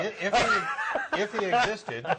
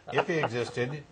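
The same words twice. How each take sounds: First: High, laughing through the words. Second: Said in the usual way. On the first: Real, not acted. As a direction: giggle out the start of the sentence. Laughing mid-sentence.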